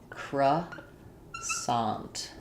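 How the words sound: American pronunciation with the final T sound heard. "that's the U S English"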